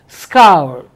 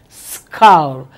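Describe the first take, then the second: Both takes have the same delivery.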